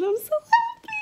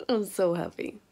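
First: Much higher, louder squeal; squealing happy. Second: Said in the usual way. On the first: Real, not acted. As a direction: squeal it with joy.

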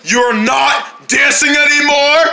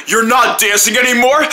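First: Drawn-out shout. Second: Said in the usual way. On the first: Acted. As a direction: stretch it into a shout. Repeated again, drawn out.

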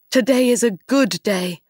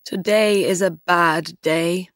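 First: Pleased, lifted delivery, punching GOOD; happy. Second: Mildly disappointed, level and subdued; glum. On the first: Fisherman rejoicing over the gold jar, mildly happy. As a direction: brighten up with a touch of delight. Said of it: "The fisherman jumped up happily". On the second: Fisherman grumbling to himself after catching a dead horse, mildly glum. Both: A narrator's reading.

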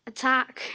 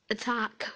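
First: ATTACK called out louder. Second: Said in the usual way. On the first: Real, not acted. Gamer urging herself on in battle, louder attack call. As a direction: call the attack with more force.

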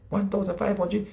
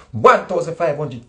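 First: Said in the usual way. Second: Louder, "One" hit firmly and falling; emphatic exact sum. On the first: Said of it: "One thousand five hundred. Flat". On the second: Shown as a demonstration. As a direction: land "One thousand five hundred" as a hard, exact figure.

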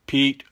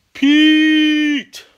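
First: Said in the usual way. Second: High, loud shout of "Pete!"; calling out. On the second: Real, not acted. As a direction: call "Pete!" across the room. Calling out a viewer's name.

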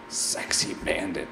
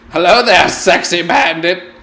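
First: Soft whispered name read to himself; whispered aside. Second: Loud greeting. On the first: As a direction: whisper it slyly. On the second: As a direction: call out sexy bandit cheekily. Greets the bandit loudly. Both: Real, not acted.

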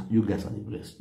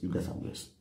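First: Said in the usual way. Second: Whispered. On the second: Shown as a demonstration. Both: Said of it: "repeated blessing".

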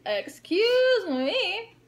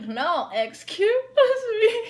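First: High, slow, drawn-out snooty "Excuse me"; mock snooty girl. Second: Higher, louder, slow and drawn out through a laugh; mock snooty girl, insisting. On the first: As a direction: stretch it out like a stuck-up stranger. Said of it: "this girl was just like". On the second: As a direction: lean on it like a stuck-up stranger pushing back. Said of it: "And she was like".

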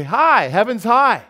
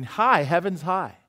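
First: Higher, louder, slow Puritan greeting; ringing slow greeting, loud and high; joyful proclamation. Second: Said in the usual way. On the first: Retold or imitated. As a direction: call it out like good news. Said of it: "so they say". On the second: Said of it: "that would mean".

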